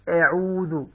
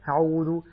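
First: The opening glottal stop is crisp and closed. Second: The opening glottal stop leaks air like an h. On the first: The speaker calls it right. "يعني تقول أعوذ" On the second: The speaker calls it wrong. "لا تقول أعوذ أعوذ ها"

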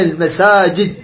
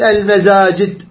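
First: The consonant after 'ma' is a clear s. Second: The consonant after 'ma' is a voiced z. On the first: The speaker calls it right. "تتفون على المساجد" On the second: The speaker calls it wrong. "لا تقول المزاجد"

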